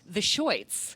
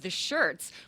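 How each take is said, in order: First: The vowel sounds like 'oi'. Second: The vowel is a plain 'er' sound. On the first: This is how the band members insisted on saying it. "they insisted on pronouncing it" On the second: This is the ordinary name of the band. "she was lead singer of The Shirts"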